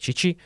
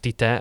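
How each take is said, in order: First: The name is said with ch sounds. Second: The name is said with plain t sounds. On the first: This is how it is said in Brazil. "Brazíliában ugye Csicsi" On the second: This is how it is said in Hungary. "Nálunk Tite"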